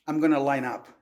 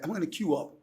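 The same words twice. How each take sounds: First: American accent, plainly demonstrated; American English accent. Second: Lightly imitated British accent; British English accent. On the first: Showing the host how an American says it, American accent. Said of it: "eu falo assim". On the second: Showing the host how England says it, British accent. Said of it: "Na Inglaterra". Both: Shown as a demonstration.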